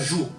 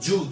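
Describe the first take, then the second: First: It starts with a soft 'zh' sound. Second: It starts with a hard 'dj' sound. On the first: This is how it is said in Brazil. The speaker calls it wrong. "quando a gente colocou um J e U, fica ju" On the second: This is close to how it is said in Japan. The speaker calls it right. "a gente teria que escrever com D, J e U"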